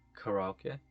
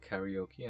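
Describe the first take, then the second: First: The word is pronounced in the Japanese way. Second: The word is pronounced in the usual English way. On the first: This is how it is said in its country of origin. "I called it karaoke" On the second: This is how the people around the speaker said it. "instead of karaoke"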